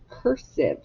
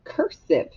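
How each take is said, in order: First: Said in the usual way. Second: Announced word. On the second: Shown as a demonstration. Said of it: "the word".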